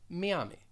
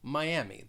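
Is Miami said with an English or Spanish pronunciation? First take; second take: Spanish; English. First: It is said with a Spanish pronunciation. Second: It is said with an English pronunciation. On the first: "Spanish speakers may pronounce it as Miami" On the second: "it does have three syllables"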